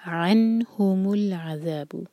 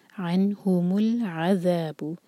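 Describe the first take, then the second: First: Slow recitation, अनहुमुल with clear नून; clear nun. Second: Slow, no jolt on the लाम in अनहुमुल, ain from the throat; smooth joining. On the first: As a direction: sound the नून in अनहुमुल plainly. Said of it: "नून पर सुकून इजहार". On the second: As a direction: join smoothly without a jerk. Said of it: "आइन को हलक से". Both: Shown as a demonstration.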